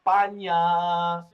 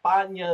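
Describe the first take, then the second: First: Slow España with a Spanish ñ; España, despacio y en español; Spanish España, drawn out. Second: España with a rolled Spanish ñ, stressed on the second syllable; España, en pronunciación española. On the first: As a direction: stretch out España like a native. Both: Shown as a demonstration. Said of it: "that's how they say it around there".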